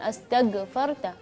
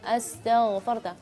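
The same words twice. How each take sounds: First: The consonant is a plain hard G sound. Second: The consonant is a clear throaty gh sound. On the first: The speaker calls it wrong. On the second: The speaker calls it right.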